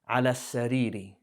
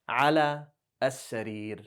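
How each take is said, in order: First: The last word ends with a short i vowel. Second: The last word ends on a bare consonant. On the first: The noun is shown in the genitive case. "We know it's a kasra because of ala" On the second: The sentence ends here. "Why did I say with sukoon? Because my sentence ended"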